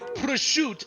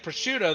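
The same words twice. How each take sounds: First: It is said with an Italian-style pronunciation. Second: It is said with an American-style pronunciation. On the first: Americans find it pretentious. "everyone thinks I'm an asshole mispronouncing prosciutto" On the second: Italians find it ignorant. "all the Italians are like, ugh, they don't even know how to say prosciutto"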